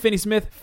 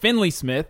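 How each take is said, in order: First: The name is said without an l sound. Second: The name is said with an l sound. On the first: The speaker calls it right. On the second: The speaker calls it wrong.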